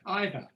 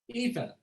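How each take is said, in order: First: It is said the British way. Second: It is said in a non-British way.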